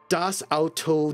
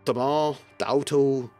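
First: The article is said fully and clearly. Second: The article is reduced to a short "de". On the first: "rather than saying das Auto" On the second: "They just say de, which, because they're Bavarian"

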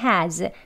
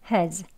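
First: It has a full, strong vowel. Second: It has a weak vowel, h kept. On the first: "강하게 has" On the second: "weak 약하게 has"

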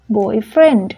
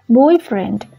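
First: The stress falls on the second part. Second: The stress falls on the first part. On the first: It is a friend who is male. "boyfriend là một noun phrase, nghĩa là một người bạn, và người bạn đó là nam" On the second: It is a romantic partner. "Nếu mình đọc boyfriend thì có nghĩa là người yêu"

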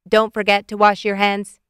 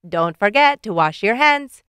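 First: The robot voice stays flat on one pitch. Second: The robot voice goes up and down melodically. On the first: "In his monotone robot voice" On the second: "But this time in a robot sing-song voice"

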